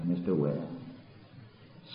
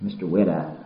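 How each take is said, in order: First: "Mister Wet Eyes" breathed softly and slowly; hushed tender. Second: Said in the usual way. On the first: Shown as a demonstration. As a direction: drop to a slow near-whisper.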